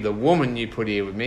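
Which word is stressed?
woman. The stress is on the word woman.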